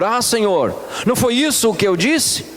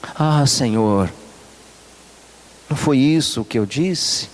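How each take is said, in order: First: It is said in a furious, angry tone. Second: It is said in a calm, mild tone.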